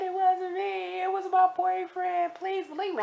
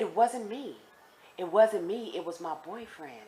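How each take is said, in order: First: Very high, sustained mock wail; imitated crying plea. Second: Said in the usual way. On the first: Crying inmate blaming her boyfriend, imitated high wailing plea. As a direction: beg to be believed in a squeaky sob. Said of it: "please stop crying". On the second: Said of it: "That's what she was saying".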